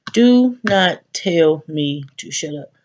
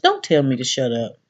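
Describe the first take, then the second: First: "Do not tell me to shut up" spaced out and slow, each word hit; firm slow stress on every word. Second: Said in the usual way. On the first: Shown as a demonstration. Telling the group admin never to tell her to shut up, slow and firm. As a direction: lay down the law word by word.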